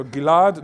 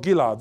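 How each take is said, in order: First: GILAD stressed as gi-LAD; stress on last syllable. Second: GILAD stressed as GI-lad; stress on first syllable. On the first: Lecturer contrasting two stresses of his name, final stress. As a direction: put the weight on LAD in Gilad. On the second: Lecturer showing the stress his name lacks, initial stress. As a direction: put the weight on GI in Gilad. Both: Shown as a demonstration. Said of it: "The only difference is the stress".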